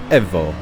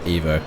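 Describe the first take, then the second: First: The word is pronounced the Italian way. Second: The word is pronounced the English way. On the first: The speaker calls it right. "apparently it's the best way to announce it as it's Italian" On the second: The speaker calls it wrong. "not Evo"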